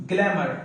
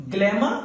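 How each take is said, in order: First: ग्लैमर said with the final r sounded, "glamor"; American pronunciation. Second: ग्लैमर said with no final r, ending open on "glama"; British pronunciation. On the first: Teacher showing students the American ग्लैमर, final r clearly sounded. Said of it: "तो आप आर का आवाज देंगे". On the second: Teacher showing students the British ग्लैमर, final r left silent. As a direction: drop the r at the end of ग्लैमर, British style. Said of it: "British English में आप उस आर का आवाज नहीं देंगे". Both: Shown as a demonstration.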